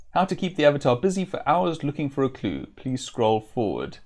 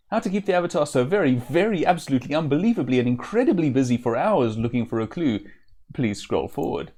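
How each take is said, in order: First: Said in the usual way. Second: Fast, louder rush through the list; rushed reading. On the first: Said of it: "first take of repeating scroll". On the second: Shown as a demonstration. Reading the jester's endless scroll to viewers, fast and louder. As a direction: rattle it off faster and faster. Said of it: "last, longest repeat of scroll".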